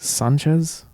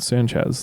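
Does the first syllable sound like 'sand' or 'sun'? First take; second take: sun; sand. First: The first vowel sounds like the one in 'sun'. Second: The first vowel sounds like the one in 'sand'. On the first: This is closer to the original Spanish way of saying it. The speaker calls it right. "you wouldn't say sand, you'd say sun" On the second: This is the common anglicized way of saying it. The speaker calls it wrong. "pronounced in a very like American English way"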